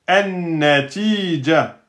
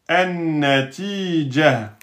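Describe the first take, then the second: No difference in how they are said.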